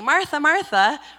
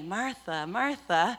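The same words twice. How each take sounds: First: The name is said in a scolding tone. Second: The name is said in a loving tone. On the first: The speaker is correcting her. The speaker calls it wrong. "obviously he didn't say Martha, Martha" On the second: The speaker is encouraging her. The speaker calls it right. "obviously he said it in a loving way"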